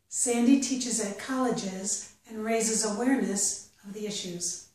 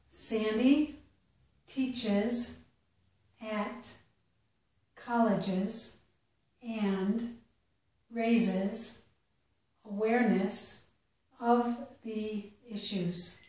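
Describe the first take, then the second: First: The sentence is read at a natural pace. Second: The sentence is read slowly. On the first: "the second time at a more natural pace" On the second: "The first time I'll read it slowly"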